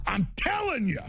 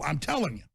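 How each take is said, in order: First: Emphatic repeat. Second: Said in the usual way. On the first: Real, not acted. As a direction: hammer the point home.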